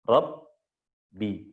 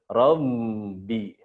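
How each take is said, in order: First: The voice stops and is held at the b. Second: The sound flows through the b without stopping. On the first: The speaker calls it right. "berhenti di sini, tertutup, tertahan suaranya" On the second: The speaker calls it wrong. "Kalau kebuka semua jadi gimana?"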